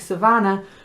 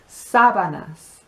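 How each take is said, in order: First: The stress is on the second syllable. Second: The stress is on the first syllable. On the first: It sounds like the word for grassland. The speaker calls it wrong. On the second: It means bed sheets. The speaker calls it right.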